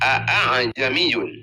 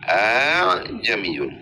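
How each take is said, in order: First: The second glottal stop is fully and clearly pronounced. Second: The second glottal stop is softened and glided. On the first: "Dua Hamzah bani ke tahqiq, epa nyata" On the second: "baca lunak, baca gampang"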